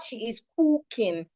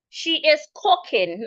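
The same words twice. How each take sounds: First: The vowel is long. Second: The vowel is short. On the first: The speaker calls it wrong. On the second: The speaker calls it right.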